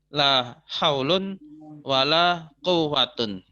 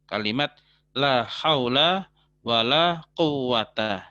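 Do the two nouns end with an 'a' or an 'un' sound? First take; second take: un; a. First: Both nouns end with an 'un' sound. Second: Both nouns end with a short 'a' sound. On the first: "contoh pola un-un ya" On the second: "Contoh eh, aa ya"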